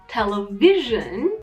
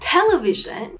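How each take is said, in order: First: The stress falls on the syllable before -sion. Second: The stress falls away from the -sion syllable. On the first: It follows the general stress rule. "according to this rule ... you're correct" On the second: It is the other accepted native pronunciation. "you're also correct"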